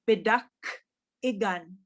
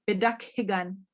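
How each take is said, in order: First: The second word starts without an h sound. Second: The second word starts with a light h sound. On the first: This is how speakers from other areas say it. "they're kind of leaving that H right out" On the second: This is how local speakers say it. "up here they pronounce the H, so you can hear it a little bit"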